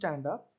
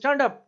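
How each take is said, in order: First: It is said very quietly, at low volume. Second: It is shouted very loudly, at high volume. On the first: "मेरा volume बिल्कुल कम है" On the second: "बहुत चिल्ला के कहूँ"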